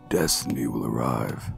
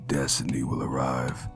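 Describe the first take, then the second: First: A deep voice with an airy, breathy sound. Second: A deep voice with an airy, breathy sound.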